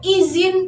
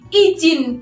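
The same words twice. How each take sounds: First: The middle consonant is a 'z' sound. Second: The middle consonant is a 'j' sound. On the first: The speaker calls it right. "pakai Z" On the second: The speaker calls it wrong. "pakai J"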